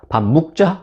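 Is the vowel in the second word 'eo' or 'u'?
u. The second word is said with a 'u' vowel. This is the dialect form. "묵으로 읽으면 사투리"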